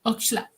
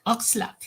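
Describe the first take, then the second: First: Said in the usual way. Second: "Oxlack" said with a Swedish accent, falling at the end. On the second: Shown as a demonstration. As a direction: say "Oxlack" the way a Swede would. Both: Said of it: "I'm saying it with a Swedish accent".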